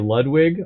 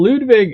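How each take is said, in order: First: The name is said with English sounds. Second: The name is said with German sounds. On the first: "I guess you could say Ludwig also" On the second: "that's how you say it in German"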